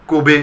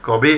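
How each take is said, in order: First: কবে said as "kobe"; closed "ko" opening কবে; close o vowel. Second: কবে said as "kɔbe"; open vowel. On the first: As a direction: say কবে with a rounded o, "koh-be". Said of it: "কইবে থেকে হওয়ার কথা ছিল". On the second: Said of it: "কিন্তু আমরা বলি". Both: Shown as a demonstration.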